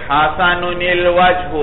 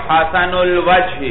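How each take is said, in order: The two takes are said the same way.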